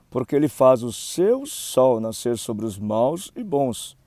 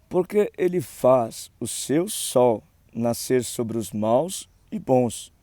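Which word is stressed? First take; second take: seu sol; none. First: The words "seu sol" are emphasized. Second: No word is given special emphasis.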